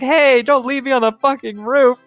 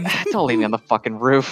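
First: It is yelled angrily and loudly. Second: It is said flatly and tiredly.

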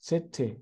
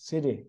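First: It is said in a British accent. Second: It is said in an American accent. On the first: "สำเนียงอังกฤษ" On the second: "สำเนียงอเมริกัน"

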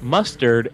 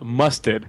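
First: The word is said in a neutral American accent. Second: The word is said in a Boston accent.

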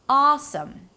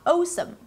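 First: The first vowel stays steady without gliding. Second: The first vowel glides toward a W sound. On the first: The speaker calls it right. "it is not a changing vowel" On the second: The speaker calls it wrong. "and not"

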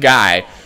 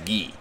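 First: The name has an English pronunciation. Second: The name has a French pronunciation. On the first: The speaker calls it wrong. "It's not Guy" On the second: The speaker calls it right. "The name is Guy. It's a French name"

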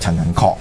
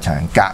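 First: The last syllable sounds like kok. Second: The last syllable sounds like gaak. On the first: The speaker calls it right. "呢個陳仁確就唔係" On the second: The speaker calls it wrong. "唔係陳仁格"

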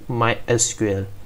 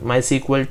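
First: SQL is said as three separate letters. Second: SQL is said as one word, sequel. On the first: This is the later, changed name. "later it was changed to SQL" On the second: This is the original name. "during initial days of this MySQL, it was pronounced as MySQL"

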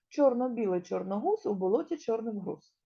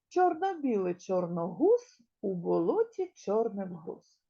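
First: It is said at a faster pace. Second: It is said at a slow, steady pace.

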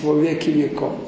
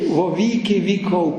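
First: It is pronounced with a Russian-style pronunciation. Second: It is pronounced with a Ukrainian-style pronunciation. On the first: This is the pronunciation the critic expected. "замість во віки віков" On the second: This is how Ukrainian clergy said it. "ці малороси, а за ними і наші, во віки віков кажуть"

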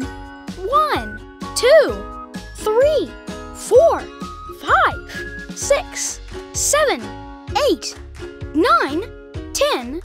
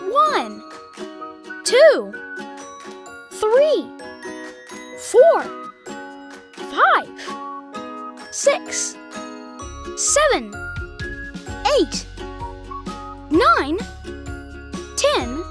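First: The numbers are counted at a very fast pace. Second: The numbers are counted at a slow pace.

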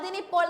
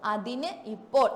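First: The words are run together as one. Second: The words are said separately with a break. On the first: The speaker calls it right. "ഒരുമിച്ച്" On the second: The speaker calls it wrong. "അങ്ങനെയാണോ നമ്മൾ പറയാറ്?"

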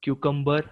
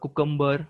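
First: The word begins with a 'kyoo' sound. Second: The word begins with a 'koo' sound. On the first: "क्युकंबर किंवा कुकंबर" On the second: "क्युकंबर किंवा कुकंबर"

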